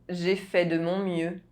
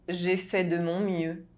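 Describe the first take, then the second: Both takes have the same delivery.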